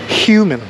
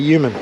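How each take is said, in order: First: The word begins with a clear h sound. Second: The word begins without any h sound. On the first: "you got to pronounce the H" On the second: "I just say human"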